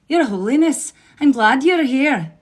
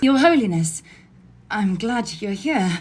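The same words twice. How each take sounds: First: It is spoken in an Irish accent. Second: It is spoken in an English accent. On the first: "Irish accent" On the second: "I'm just going to do her voice in an English voice"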